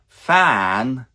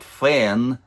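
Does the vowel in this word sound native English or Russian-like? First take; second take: native English; Russian-like. First: The vowel is open, like the vowel in 'cat'. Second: The vowel is closer, like the vowel in 'bed'. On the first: The speaker calls it right. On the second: The speaker calls it wrong.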